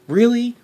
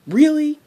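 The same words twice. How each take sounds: First: High, loud disbelief; really, are you serious; shrill outrage at the booking decision; incredulous. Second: Higher, louder disbelief; even more incredulous. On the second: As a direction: push the disbelief further. Outraged at the booking. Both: Real, not acted.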